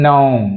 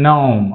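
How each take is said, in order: No difference in how they are said.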